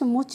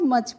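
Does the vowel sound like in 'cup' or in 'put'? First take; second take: put; cup. First: The vowel sounds like the 'u' in 'put'. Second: The vowel sounds like the 'u' in 'cup'. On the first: The speaker calls it wrong. "मुच नहीं पढ़ते हैं" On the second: The speaker calls it right. "इसको मच पढ़ते हैं"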